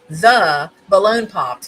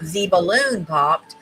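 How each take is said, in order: First: The word 'the' is said with a short 'thuh'. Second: The word 'the' is said with a long 'thee'. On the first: The speaker calls it right. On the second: The speaker calls it wrong.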